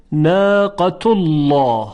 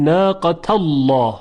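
First: Slow "ناقة الله" read as "naaqatullawh"; "tu" ending into a dark, full lam in "ناقة الله"; damma before thick lam. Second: "ناقة الله" read as "naaqatallawh"; "ta" ending into a dark, full lam in "ناقة الله"; fatha before thick lam. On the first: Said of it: "همین کلمهٔ ناقة الله رو با فتح هم بخونیم". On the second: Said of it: "با فتح هم بخونیم". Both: Shown as a demonstration.

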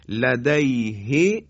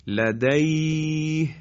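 First: لدیه read ladayhi with final i; slow لدیه with vowelled h; connected form. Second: لدیه slowly chanted, ending on a still h; slow Quranic stop on لدیه; pausal form. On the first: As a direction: keep the vowel on لدیه, rising. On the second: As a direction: stop on لدیه, no final vowel, recited slowly. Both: Shown as a demonstration.

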